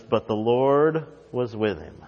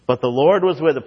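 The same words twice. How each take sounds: First: Said in the usual way. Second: The line repeated with rising conviction; stress on Lord, raised. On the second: Shown as a demonstration. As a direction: Lord lifted and a bit louder. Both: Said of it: "I love that line".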